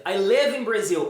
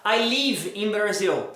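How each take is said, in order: First: Slow example, "live" close to lev; short lax vowel in "live"; correct short vowel. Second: Slow "live" said as leev; Portuguese long I in "live"; wrong long vowel. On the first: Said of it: "você vai falar". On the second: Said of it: "você não vai falar". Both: Shown as a demonstration.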